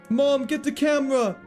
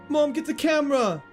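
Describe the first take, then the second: The two takes are said the same way.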